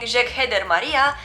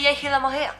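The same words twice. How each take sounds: First: "Jeg Heder Maria" read as spelt, hard G; foreigner's "Jeg Heder Maria"; wrong pronunciation. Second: "Jeg Hilla Maria" with jeg as yai; Danish pronunciation. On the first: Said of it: "instead of saying". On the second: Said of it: "you have to say". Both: Shown as a demonstration.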